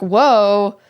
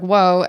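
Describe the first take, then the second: First: It is said as a big, exaggerated reaction. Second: It is said as a smaller, milder reaction. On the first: An exaggerated retelling of the reaction. "that's probably so exaggerated from her actual reaction" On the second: Closer to how it was actually said. "she said something just like"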